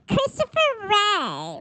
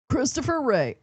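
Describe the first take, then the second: First: It is said in a baby voice. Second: It is said in a normal voice.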